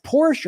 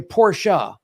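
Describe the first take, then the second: First: First "Porsche" as one syllable, PORSH; English pronunciation. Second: "Porsche" as two syllables, POR-shuh; German pronunciation. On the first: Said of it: "is it pronounced Porsche or Porsche". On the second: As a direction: end "Porsche" on an open uh. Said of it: "Porsche is the German pronunciation". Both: Retold or imitated.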